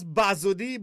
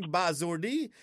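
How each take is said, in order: First: "buzzardy" said the local way; local pronunciation. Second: "buzzardy" drawn out with an English sound; anglicised pronunciation. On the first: Shown as a demonstration. Host shows caller the word he knows, local pronunciation of "buzzardy". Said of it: "I know it as buzzardy". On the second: Retold or imitated. Host mimics caller putting English into it, anglicised "buzzardy". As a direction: say "buzzardy" slowly, as if it were English. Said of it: "you put in the English to it".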